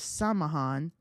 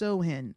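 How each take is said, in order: First: It is said with an m sound, like Sam-hain. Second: It is said without an m sound, like Sow-in. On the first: The speaker calls it wrong. "or oh" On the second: The speaker calls it right. "it's pronounced Sohin"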